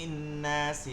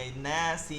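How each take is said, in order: Both takes have the same delivery.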